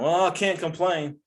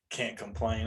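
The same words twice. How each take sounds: First: Mock quote. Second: Said in the usual way. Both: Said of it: "they always say".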